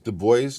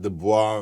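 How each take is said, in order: First: The name is said the English way. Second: The name is said the French way. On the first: This is how the man himself said his name. The speaker calls it right. "the proper name is Du Bois" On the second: People say it this way to sound fancy. The speaker calls it wrong. "not Du Bois"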